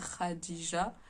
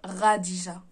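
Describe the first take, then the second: First: The name starts with a throaty kh sound. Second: The name starts with a French r sound. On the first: The speaker calls it right. "quelques personnes qui font un petit effort pour dire Khadija" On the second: The speaker calls it wrong. "et les autres, R- Radija"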